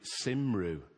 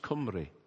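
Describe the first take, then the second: First: The word is pronounced the anglicized, spelled-out way. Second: The word is pronounced the native Welsh way. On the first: The speaker calls it wrong. "And I pronounced it Cymru" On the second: The speaker calls it right. "the word Welsh in Welsh is Cymru"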